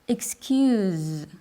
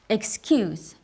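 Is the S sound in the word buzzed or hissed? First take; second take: buzzed; hissed. First: The S is a soft buzzing sound. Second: The S is a strong hissing sound. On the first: It is the verb, to forgive. "that S is softer, like a buzz" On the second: It is the noun, a reason given. "is pronounced with a strong S"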